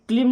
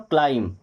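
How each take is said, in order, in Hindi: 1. स्वर छोटी 'ih' ध्वनि है। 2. स्वर लंबी 'eye' ध्वनि है। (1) "ये क्लिम नहीं होगा"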